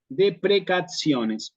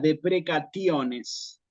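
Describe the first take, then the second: First: The middle consonant sounds like ts. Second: The middle consonant is a hard t. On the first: This is the church Latin pronunciation. "Esta T suena como una T S" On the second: This is how the ancient Romans would have said it. "como una T dura"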